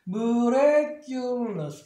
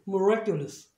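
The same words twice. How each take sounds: First: The word is said slowly, part by part. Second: The word is said quickly in one go.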